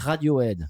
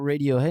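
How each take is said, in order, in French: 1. Le nom se prononce à la française. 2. Le nom se prononce à l'anglaise. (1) "on dit" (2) "on dit pas"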